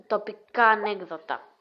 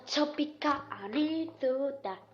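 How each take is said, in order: First: Said in the usual way. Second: "τσοπικά" with a ts sound replacing the first t; odd mispronunciation. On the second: Real, not acted. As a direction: softly say "τσοπικά", t turned into ts. (παράξενη προφορά, «τσοπικά» με τσ αντί για τ) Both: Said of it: "Sorry που μιλάω έτσι".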